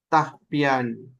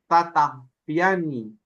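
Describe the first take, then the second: First: The word starts with 'ta' said once. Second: The word starts with 'ta' said twice. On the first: The speaker calls it right. "este doble ta se convirtió en uno solo" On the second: The speaker calls it wrong. "deberían de haber quedado doble ta"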